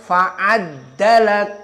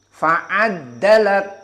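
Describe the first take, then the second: No difference in how they are said.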